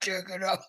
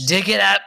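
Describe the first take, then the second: First: Joking deep voice, at normal volume; put-on deep voice. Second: Startling mock-monstrous bellow, very loud; loud deep voice. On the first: Showing the co-host they can go deep, put-on deep voice. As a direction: repeat it in a put-on deep voice, without shouting. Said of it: "I can go deep when I want to". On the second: Joking outburst that startles the co-host, loud deep voice. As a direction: boom it out deep and terrifying, far too loud. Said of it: "It was so deep".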